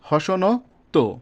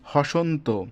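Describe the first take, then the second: First: A vowel is sounded between the n and t. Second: The n and t join with no vowel between. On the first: The speaker calls it wrong. "যদি আমি হসন্ত না দিতাম, তাহলে কি এমন উচ্চারণ হতো" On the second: The speaker calls it right. "অটা উঠিয়ে দেওয়ার জন্য কি হয়েছে, হসন্ত"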